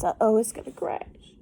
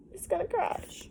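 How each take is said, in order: First: Said in the usual way. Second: High, soft alarmed cry of worry. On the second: Real, not acted. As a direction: sound worried for the ship, pitched well up. Worried about the ship.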